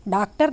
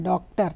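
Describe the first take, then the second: First: डॉक्टर said as 'daaktar', with long 'aa'; wrong pronunciation. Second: डॉक्टर with a rounded open 'aw' vowel; correct pronunciation. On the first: Teacher shows learners what to avoid, 'daaktar' vowel. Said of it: "नहीं हम लोग बोलते हैं". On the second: Teacher models the word for learners, correct rounded vowel. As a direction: say डॉक्टर with 'aw', not 'aa'. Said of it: "उसका उच्चारण हम कैसे करते हैं". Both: Shown as a demonstration.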